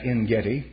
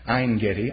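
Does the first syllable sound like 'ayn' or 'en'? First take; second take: en; ayn. First: The first syllable has a short 'e' vowel. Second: The first syllable has an 'ay' diphthong vowel. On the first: The speaker calls it wrong. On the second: The speaker calls it right.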